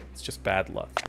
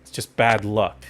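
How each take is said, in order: First: A muttered whisper of excuse; whispered repeat. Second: Said in the usual way. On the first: Shown as a demonstration. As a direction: whisper it to yourself, softer.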